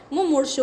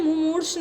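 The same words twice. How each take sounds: First: मुमूर्षु ending in a short 'u'; correct pronunciation. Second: मुमूर्ष without the final 'u'; wrong pronunciation. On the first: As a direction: sound the final shu of मुमूर्षु. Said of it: "होता है". (मुमूर्षु के अंत में 'षु' साफ़ बोलें) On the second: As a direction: end मुमूर्ष on the bare sh sound. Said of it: "नहीं होता है". (मुमूर्ष को अंतिम 'उ' के बिना बोलें) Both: Shown as a demonstration.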